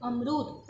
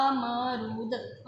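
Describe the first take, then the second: First: Said in the usual way. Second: अमरूद stretched very slowly with a long opening अ; drawn-out अमरूद. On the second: Shown as a demonstration. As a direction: draw out अमरूद slowly so the first vowel is heard. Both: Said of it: "आ से देखो अमरूद".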